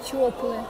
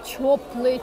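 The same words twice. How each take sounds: The two takes are said the same way.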